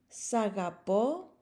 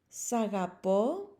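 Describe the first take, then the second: Both takes have the same delivery.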